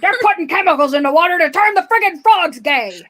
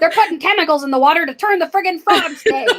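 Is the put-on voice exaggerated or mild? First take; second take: exaggerated; mild. First: A heavily exaggerated put-on voice imitates someone. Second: A mild put-on voice imitates someone. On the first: The speaker calls it right. "there we go" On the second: The speaker calls it wrong. "You didn't go far enough with the voice"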